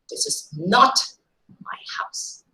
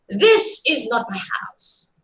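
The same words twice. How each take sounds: First: The stress falls on the word my. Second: The stress falls on the word this. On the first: The house belongs to somebody else. "while the stress changes to my possession, likely guesses are somebody else's" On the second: The speaker's house is a different one somewhere else. "if you are stressing the first word here"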